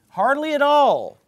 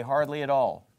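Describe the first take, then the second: First: HARDLY AT ALL pitched high and loud; "Hardly at all" cried out for emphasis; emphatic repetition. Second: Said in the usual way. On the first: Real, not acted. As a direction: hit "Hardly at all" with a raised, forceful voice. Repeats the phrase for emphasis.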